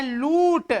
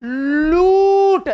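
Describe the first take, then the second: First: लूट with a lightly lengthened लू; first stress example. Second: लूट with लू hugely drawn out, high and loud; stress on लू. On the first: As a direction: give लू in लूट a little extra length. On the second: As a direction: hammer and stretch the लू in लूट. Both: Shown as a demonstration. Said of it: "लू पर भार दिए".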